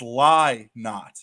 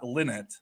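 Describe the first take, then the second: First: The first syllable sounds like 'lie'. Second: The first syllable sounds like 'lin'. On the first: The speaker calls it right. "it's Lie Not" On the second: The speaker calls it wrong. "not Linnet"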